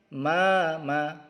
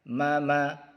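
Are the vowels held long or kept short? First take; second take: long; short. First: The vowels are long, about two beats. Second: The vowels are short, one beat each. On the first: "Yang ini panjang" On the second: "pendek ya. Kita baca satu ketuk saja"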